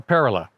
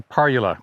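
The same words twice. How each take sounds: First: "parula" said as PAIR-uh-luh; "parula" with an opening "pair" sound; variant pronunciation. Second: "parula" said as PAR-yoo-luh; "parula" as par-yuh-luh, stressed up front; variant pronunciation. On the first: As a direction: stress the first syllable of "parula", rhyming it with pair. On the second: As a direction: give "parula" an opening "par" and a y-glide. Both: Shown as a demonstration. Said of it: "however you wanna pronounce it".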